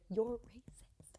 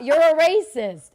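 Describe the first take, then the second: First: Slow whispered accusation; exaggerated silent-style call-out; mouthed whisper. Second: High, very loud, stretched-out shout; acted-out yell across the room; retold shouted accusation. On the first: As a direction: whisper it slowly as if mouthing from afar. Mimes accusation down the escalator. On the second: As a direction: belt out the accusation, drawn out. Retold repeated accusation in quarrel.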